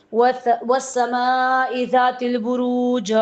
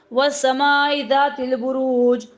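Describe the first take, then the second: First: Slow recited Arabic verse, each syllable drawn out; slow reverent Quranic recitation. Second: Said in the usual way. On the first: Shown as a demonstration. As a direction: intone وَالسَّمَاءِ ذَاتِ الْبُرُوجِ slowly like tilawat.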